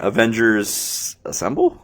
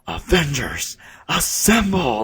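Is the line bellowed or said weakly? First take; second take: weakly; bellowed. First: It is said weakly and uncertainly. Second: It is bellowed in a comic-book way.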